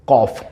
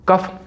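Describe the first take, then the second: First: कॉफ with an open "aw" vowel, kawf; correct pronunciation. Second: कफ with a short "uh" vowel, kuf; wrong pronunciation. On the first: Teacher giving the right sound, कॉफ said as kawf. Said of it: "इसका उच्चारण होता है कॉफ". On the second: Teacher showing the common mistake, कफ said as kuf. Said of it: "उच्चारण इसका गलत करते हैं". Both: Shown as a demonstration.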